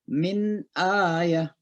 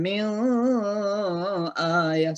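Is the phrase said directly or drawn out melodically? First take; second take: direct; drawn out. First: The phrase is said directly without melodic lengthening. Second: The phrase is drawn out with a melodic lilt. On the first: The speaker calls it right. "Jadi langsung" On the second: The speaker calls it wrong. "jangan dilagu-lagukan min ayah, salah"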